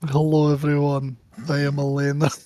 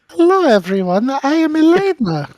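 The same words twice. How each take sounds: First: It is said in a lower voice. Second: It is said in a higher voice.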